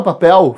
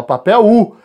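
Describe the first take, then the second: First: Papel with a clear final L sound; spelling pronunciation. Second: Papel U, the final L vocalized into a U glide; L sounded as U. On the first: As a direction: say papel ending on a crisp L, as if reading the spelling. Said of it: "ninguém fala papel". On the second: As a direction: say papel ending in a U sound, like papéu. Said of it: "esse L vai fazer o som de U". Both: Shown as a demonstration.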